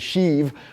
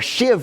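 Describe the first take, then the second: First: The word has a long 'ee' vowel. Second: The word has a short 'i' vowel. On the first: "It's a sheave" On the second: "shiv was how they pronounce it"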